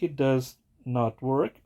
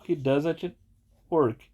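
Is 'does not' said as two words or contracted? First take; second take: two words; contracted. First: Does and not are said as two words. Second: Does and not are joined into doesn't. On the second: "a forma contraída"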